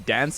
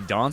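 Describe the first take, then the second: First: It is said in an American accent. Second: It is said in a British accent.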